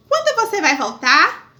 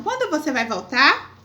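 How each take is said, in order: First: Questioning rise. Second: Question tune. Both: Shown as a demonstration. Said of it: "Interrogação".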